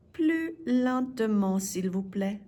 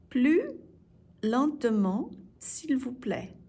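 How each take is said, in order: First: Said in the usual way. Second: "Plus", pause, "lentement", pause, "s'il vous plaît"; broken into chunks. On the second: Shown as a demonstration. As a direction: separate each part of Plus lentement for learners. Teacher breaks phrase up for learners.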